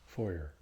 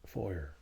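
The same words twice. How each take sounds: First: It is said in a West Country accent. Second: The same.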